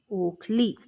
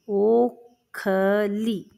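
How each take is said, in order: First: Said in the usual way. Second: Stretched syllable by syllable; ओखली drawn out for dictation; slow dictation. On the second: Shown as a demonstration. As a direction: spell out ओखली slowly as ओ-ख-ली. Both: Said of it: "इसका नाम है बच्चों ओखली".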